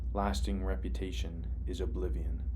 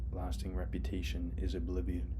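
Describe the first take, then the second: Both takes have the same delivery.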